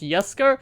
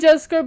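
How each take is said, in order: First: The name begins with a Y sound. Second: The name begins with a J sound. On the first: The speaker calls it right. "the Swedish pronounce it as um with a Y" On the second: The speaker calls it wrong. "I wanted to say Jesko"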